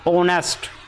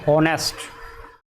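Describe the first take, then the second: First: The word begins with a vowel sound. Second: The word begins with an h sound. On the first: The speaker calls it right. "इसमें एच हमारा silent होता है तो ये बनता" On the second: The speaker calls it wrong. "जो लोग सही से अगर इंग्लिश नहीं जानते हैं वो इसे पढ़ेंगे"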